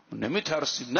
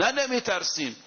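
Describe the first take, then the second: First: Said in the usual way. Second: نه thrown out much higher, then falling; proud defiant نه, high and falling; defiant stress on نه. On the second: Acted. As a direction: hit نه hard, like refusing fear.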